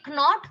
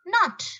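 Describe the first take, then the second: First: "knot" as k-not, rising; K sounded. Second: "Knot" as not, high then falling; silent K. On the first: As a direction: say "knot" wrongly with a hard k. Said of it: "No, what is it?". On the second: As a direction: say "Knot" starting on n. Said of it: "The actual pronunciation". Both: Shown as a demonstration.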